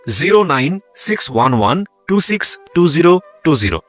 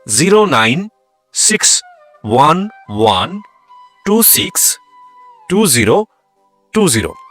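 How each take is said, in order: First: The number is said at normal speed. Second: The number is said slowly.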